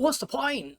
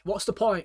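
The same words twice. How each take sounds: First: It sounds lively, questioning and curious. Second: It sounds flat, low and defeated. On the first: The speaker wants to find out the purpose. "Let me go and figure it out" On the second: Nothing is worth doing. "just gonna stay in bed"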